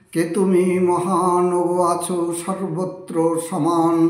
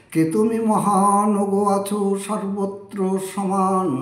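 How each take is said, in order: The two takes are said the same way.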